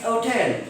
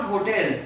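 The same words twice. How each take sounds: First: HOTEL starting on the vowel, oh-tel; dropped h. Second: HOTEL with the h pronounced; sounded h. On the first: Retold or imitated. Teacher imitating the Britishers' hotel, h left silent. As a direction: drop the h from hotel. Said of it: "For them, it's hotel". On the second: Shown as a demonstration. Teacher shows what the British didn't say, sounded h in hotel. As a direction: begin hotel on an audible h. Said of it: "So it's not hotel".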